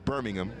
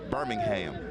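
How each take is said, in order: First: It is said the English way. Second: It is said the American way. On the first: It names the city in England. "the city in England is Birmingham" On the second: It names the city in Alabama. "The city in Alabama is Birmingham"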